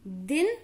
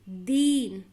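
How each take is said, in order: First: "दिन" with a quick, short i; short vowel. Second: "दीन" with a long held ee; long vowel. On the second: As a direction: linger on the ee in "दीन". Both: Shown as a demonstration. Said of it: "दोनों का उच्चारण में difference देखिए".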